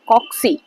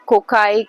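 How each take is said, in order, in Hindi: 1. बीच का व्यंजन 'ks' ध्वनि है। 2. बीच का व्यंजन एक सादा 'k' ध्वनि है। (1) "जो रियल प्रोनाउंसिएशन है दैट इज कॉक्सी" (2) "अभी तक शायद आप इसको कोकाई uh, जो भी बोलते होंगे"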